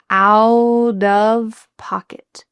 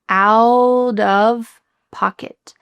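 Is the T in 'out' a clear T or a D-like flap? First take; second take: D-like flap; D-like flap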